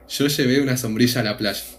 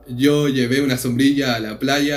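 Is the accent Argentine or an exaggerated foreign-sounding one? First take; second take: Argentine; exaggerated foreign. First: It is said with an Argentine accent. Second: It is said with an exaggerated foreign-sounding accent.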